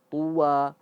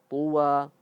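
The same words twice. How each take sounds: No difference in how they are said.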